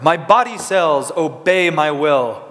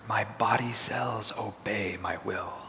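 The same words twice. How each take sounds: First: It is said in a powerful, heroic voice. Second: It is said in a whisper. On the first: "like you were a superhero" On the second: "And now in a whisper"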